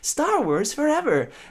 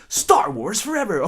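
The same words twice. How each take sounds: First: It is said in a cheerful, happy way. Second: It is said with strong passion.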